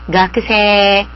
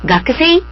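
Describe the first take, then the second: First: The ending is said as one long e vowel. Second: The ending is said as two vowels, e then i. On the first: The speaker calls it right. "길게 읽어야 된다는 거죠" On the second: The speaker calls it wrong. "가크세이가 아니고요"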